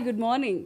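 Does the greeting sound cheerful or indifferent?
cheerful. The greeting sounds warm and cheerful. The greeting brightens the listener's day. "इसके good morning ने दिन बना दिया"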